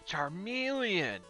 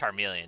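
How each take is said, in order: First: The name is enunciated with strong, intense force. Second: The name is said plainly, without special force. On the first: "Just like really intense" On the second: "Not just Charmeleon"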